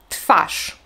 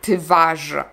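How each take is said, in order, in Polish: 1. Głoska w po t brzmi bezdźwięcznie, jak f. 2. Głoska w po t brzmi dźwięcznie, jak v. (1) "tak jakby wy to było fy" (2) "Nie mówimy"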